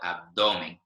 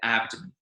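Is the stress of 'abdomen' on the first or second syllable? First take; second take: second; first. First: The stress is on the second syllable. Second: The stress is on the first syllable. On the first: It is the Spanish pronunciation. "In Spanish, it's in the center of the word" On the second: It is the English pronunciation. "the stress in English is at the beginning of the word"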